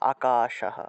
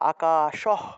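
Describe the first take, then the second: First: The final h is pronounced fully. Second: The final h is clipped without a vowel. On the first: The speaker calls it right. "পূর্ণরূপে হ উচ্চারণ" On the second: The speaker calls it wrong. "যদি তালবস্য হ হসন্ত দেওয়া হয় তাহলে উচ্চারণটা হয়ে যায়"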